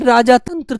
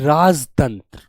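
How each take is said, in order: First: The first part ends in a long 'aa' vowel. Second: The first part is shortened without the 'aa' vowel. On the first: The speaker calls it wrong. "राजा तंत्र थोड़ी बोला जाएगा" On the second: The speaker calls it right. "छोटे रूप में बोलना चाहिए"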